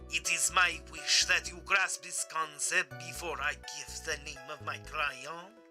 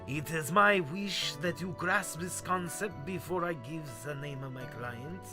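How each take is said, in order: First: The voice is processed through a voice changer. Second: The voice is heard without any voice changer. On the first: The speaker calls it right. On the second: The speaker calls it wrong.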